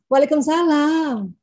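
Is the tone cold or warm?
warm. It sounds warm and affectionate, soft and sweet.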